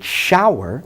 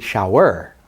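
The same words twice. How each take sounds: First: Shower as SHOW-er, first syllable punched; shower with the first vowel stressed. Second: Shower as show-ER, second syllable punched; mis-stress shower on its ending; shower with the weight thrown onto "er". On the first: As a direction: lean on the "show" of shower, weak ending. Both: Shown as a demonstration. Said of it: "Where am I putting the emphasis?".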